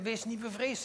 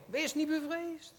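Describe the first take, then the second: First: Said in the usual way. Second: Higher and slower, with the stress on niet; comforting angel. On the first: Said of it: "zelf Jezus zegt". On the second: Retold or imitated. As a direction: lift "Wees niet bevreesd" higher and slow it down, leaning on niet. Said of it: "zei de engel". (hoger en langzaam, nadruk op niet, als een troostende engel)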